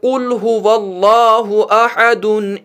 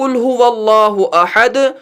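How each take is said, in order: First: The last word ends with an added -un. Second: The last word ends on a bare consonant. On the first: The reciter continues without stopping. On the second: The reciter stops here.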